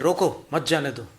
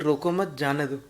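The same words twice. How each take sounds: First: There is a pause right after 'roko'. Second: There is a pause right after 'mat'.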